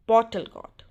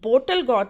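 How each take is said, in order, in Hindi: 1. 'bottle' का पहला स्वर 'aw' जैसा सुनाई देता है। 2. 'bottle' का पहला स्वर 'oh' जैसा सुनाई देता है। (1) "नहीं बॉटल गॉड" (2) "बोटल गॉड नहीं"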